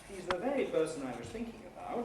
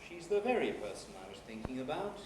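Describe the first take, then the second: First: One fall-rise starts on thinking and rises at the end. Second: A separate high fall comes first, then a later low rise. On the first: "a simple tune using a fall-rise nucleus" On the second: "first a high fall and then later on a low rise"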